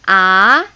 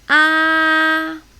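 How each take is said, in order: First: The pitch sounds questioning, like doubting something. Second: The pitch stays high and level. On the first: "I call it doubting tone" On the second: "It's like opera. Ah, just keep it there, very high"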